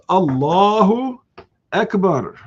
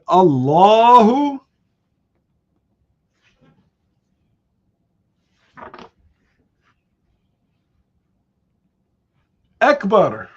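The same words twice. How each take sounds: First: There is a short pause between the words. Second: There is a long pause between the words.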